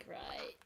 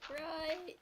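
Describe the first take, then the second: First: Said in the usual way. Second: "right" as a high, rising question. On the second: Real, not acted. Gamer checking the armor will break, questioning. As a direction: say "right" higher, lifting into a doubtful question.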